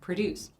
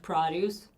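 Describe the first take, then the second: First: The stress is on the second syllable. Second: The stress is on the first syllable. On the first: It is used as a verb. "to produce a movie" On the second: It is used as a noun. "fresh produce"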